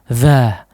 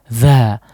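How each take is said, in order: The two takes are said the same way.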